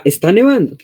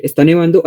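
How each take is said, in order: First: NEVANDO raised high, then falling; exclaimed "nevando" with a high arch and falling end; exclamation. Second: Said in the usual way. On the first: Shown as a demonstration. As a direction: exclaim it, lifting the pitch on "nevando". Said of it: "por los signos de exclamación". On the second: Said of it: "No es lo mismo decir".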